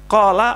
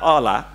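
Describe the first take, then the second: First: It begins with a deep back q sound. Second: It begins with a glottal stop. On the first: This is standard eloquent Arabic. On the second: This is how Egyptians speak Arabic.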